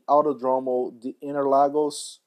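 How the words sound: The name is said with an English accent. The speaker calls it wrong. "I read that in, in English"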